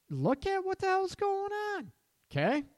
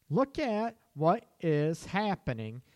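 First: Very high-pitched, exasperated cry; high squeal of exasperation; exasperated urging. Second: Slow, measured insistence; slow, firm restatement; deliberate emphasis. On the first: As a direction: shoot the voice way up, insistent. Exasperated urging to face problem. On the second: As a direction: spell it out word by word. Same urging, restated deliberately. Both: Real, not acted.

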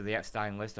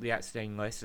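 First: Second half of Epstein rhymes with mine; Epstein ending like STINE. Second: Long ee in the second half of Epstein; Epstein ending like STEEN. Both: Shown as a demonstration. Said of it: "I fucking always struggle with that name".

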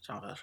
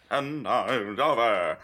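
First: Said in the usual way. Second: Slow, grand Javert, dragged out; mock dramatic Javert. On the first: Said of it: "Oh, no, Javert". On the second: Co-host hamming up his Les Mis role, slow and grand. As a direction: announce yourself like the stage inspector.

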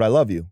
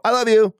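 First: Said in the usual way. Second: A high, light, offhand "love you" like hanging up the phone; mock throwaway. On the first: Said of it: "we don't throw around the word". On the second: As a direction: toss it off automatically, without thinking. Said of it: "people just say it as a reaction".

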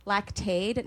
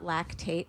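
First: "Lactaid" said with a D at the end; pronunciation correction. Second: "lactate" said with a T at the end; mispronunciation demo. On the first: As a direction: quietly give "Lactaid" its final D sound. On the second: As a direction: quietly end "lactate" on a crisp T. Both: Shown as a demonstration. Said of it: "not lactate".

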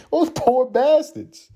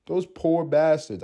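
First: Very high, very slow, drawn-out pity; mock pity. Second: Slow, a little higher sigh of pity. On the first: Host pictures abused aliens, hams up a high slow lament. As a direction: whine it way up like a cartoon lament. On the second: Acted. Host repeats his lament for aliens, calmer and slow. Pities captured aliens again.

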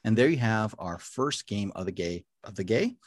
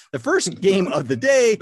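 First: Said in the usual way. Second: Slower, higher, laughing at the slip; laughing correction. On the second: Real, not acted. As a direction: fix "day" with a giggle.

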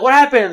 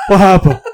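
First: High, loud alarmed question; alarmed boss. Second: Loud shouted "What happened?" with a laugh; shouted question. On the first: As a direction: ask it startled, pitched well up. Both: Retold or imitated. Boss runs outside.

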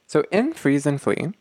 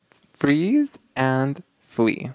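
First: Said in the usual way. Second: Freeze and flee stretched very slowly; drawn-out label. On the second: Shown as a demonstration. Host to podcast listeners, naming the style, very slow and deliberate. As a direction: lay each word out slowly for the listeners.

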